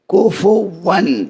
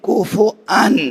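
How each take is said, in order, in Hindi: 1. बीच में एक 'w' की आवाज़ जुड़ती है। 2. 'w' की आवाज़ की जगह एक ग्लॉटल ब्रेक आता है। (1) "अगर आप इस तरह पढ़ें सही है" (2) "मौला अमीरुल मोमिनीन पढ़ा करते थे कुफु अन"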